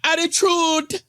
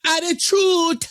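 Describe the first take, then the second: First: High mock-sassy Attitude rising at the end; light imitation of a sassy girl, Attitude lifting up; sassy girl mimic. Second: High, drawn-out sassy Attitude with a falling end; imitating a sassy girl, Attitude sung slowly downward; mocking sassy attitude. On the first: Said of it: "Yes, sassy girl". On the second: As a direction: stretch Attitude out slow, high and falling, mocking her sass. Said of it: "There was no reason for her to speak like this".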